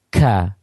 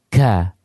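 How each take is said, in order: Both takes have the same delivery.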